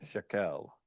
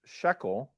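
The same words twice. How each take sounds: First: "shekel" misstressed as shek-EL; "shekel" with weak shek, full KEL; stress on last syllable. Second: "shekel" stressed SHEK-el; "shekel" with strong SHEK, weak el; stress on first syllable. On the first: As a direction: say "shekel" with the accent on the final syllable. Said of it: "instead of". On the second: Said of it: "Well, there's an accent mark". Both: Shown as a demonstration.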